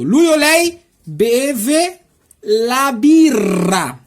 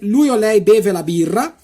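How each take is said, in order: First: The sentence is spoken slowly. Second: The sentence is spoken quickly. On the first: "agora eu vou tentar de falar devagarzinho para você" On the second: "Agora eu vou falar rapidão as seis frases"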